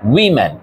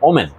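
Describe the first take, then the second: First: It begins with a 'wi' sound, like wimmin. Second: It begins with an 'oh' sound, like omen. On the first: It means more than one woman. The speaker calls it right. "Plural যেটা, এটার উচ্চারণ হচ্ছে উইমেন" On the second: It sounds like the word for a bad sign. The speaker calls it wrong. "আমরা এই ওমেন শব্দটা সবাই উচ্চারণ করি এভাবে"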